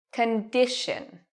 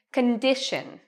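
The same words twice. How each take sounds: First: Slow Condition, DI long and loud; stress on DI. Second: Condition with DI longer and louder; stress on DI. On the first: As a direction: stretch DI in Condition. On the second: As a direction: lean on DI in condition. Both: Shown as a demonstration. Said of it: "this is the part that is louder and longer".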